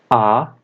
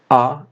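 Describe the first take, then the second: First: The vowel is held for a long time. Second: The vowel is held only briefly. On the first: "A pronúncia das vogais longas é a seguinte" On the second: "A pronúncia das vogais breves é a seguinte"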